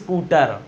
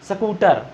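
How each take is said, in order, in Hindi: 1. s से पहले एक पूरा 'i' स्वर आता है। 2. s के बाद एक स्वर आता है; पहले कोई नहीं। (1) "ई बोलना भी नहीं आपको कि आप बोलने लगो" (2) "बहुत लोग बात करते हैं तो इसको बोल देते हैं"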